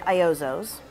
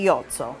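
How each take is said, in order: First: The name is said with an American pronunciation. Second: The name is said with an Italian pronunciation. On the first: "in the U S we say Iozzo's" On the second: "in Italy we say Iozzo"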